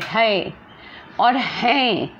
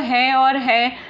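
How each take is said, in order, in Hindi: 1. दोनों शब्द स्पष्ट रूप से बोले जाते हैं, दूसरा शब्द अनुनासिक है। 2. दोनों शब्द ढीले ढंग से बोले जाते हैं, इसलिए एक जैसे सुनाई देते हैं। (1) "देखो क्लियरली है" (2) "बोलचाल की भाषा में बोलेंगे तो है और है आराम से बोलते हैं"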